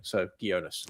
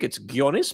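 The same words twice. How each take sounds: First: Gionis said the Anglo way, hard G and OH vowel; softer, lower Anglicised Gionis with a hard G; Anglo pronunciation. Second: Gionis said the Greek way, hard G; Greek pronunciation. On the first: Guest letting host use easier form, Anglo pronunciation. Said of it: "say it the Anglo way". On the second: Guest showing his name's Greek form, hard-G Greek pronunciation. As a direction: say Gionis as a Greek Australian would. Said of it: "And being Australian Greek". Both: Shown as a demonstration.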